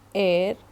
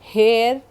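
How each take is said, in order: First: The word starts with a vowel, no H. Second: The word starts with a clear H sound. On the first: The speaker calls it right. "did you listen to my pronunciation?" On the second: The speaker calls it wrong. "नहीं कहते हैं"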